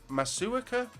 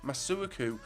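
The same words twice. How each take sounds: First: "Masuaku?" asked high and soft, unsure; "Masuaku?" tried with a questioning rise; unsure questioning name. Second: "Masuaku." settled on with a firm fall; settled name. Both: Real, not acted. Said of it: "don't know how to say that guy's name".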